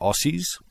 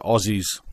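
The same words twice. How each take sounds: First: The middle consonant is an s sound. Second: The middle consonant is a z sound. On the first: The speaker calls it wrong. "not Aussies" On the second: The speaker calls it right. "Australians are Aussies"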